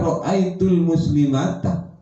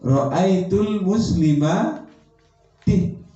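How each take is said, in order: First: The last word ends with an 'a' vowel. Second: The last word ends with an 'i' vowel. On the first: The speaker calls it wrong. "bukan dibaca" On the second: The speaker calls it right. "dengan menggunakan harkat kasroh"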